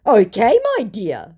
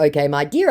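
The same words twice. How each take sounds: First: High, loud opening, dropping away; hammed-up term of endearment; put-on scammer voice. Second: Said in the usual way. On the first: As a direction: play the smarmy scammer up high. Voicing the second scammer.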